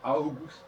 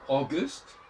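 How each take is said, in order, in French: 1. Il se prononce à l'allemande. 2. Il se prononce à l'anglaise. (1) "comme les Allemands" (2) "c'est le A U français"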